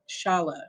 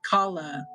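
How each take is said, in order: First: The word does not begin with a k sound. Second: The word begins with a k sound. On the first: The speaker calls it wrong. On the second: The speaker calls it right.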